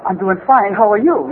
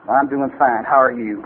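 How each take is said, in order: First: Copying a little Japanese-bar regular; mimicking the little guy. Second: Low-pitched copy of a cowboy-bar regular; mimicking the barfly. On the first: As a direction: answer in the little fellow's voice. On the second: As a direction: answer low, in the barfly's own voice. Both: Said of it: "whoever I'm around, I start acting like".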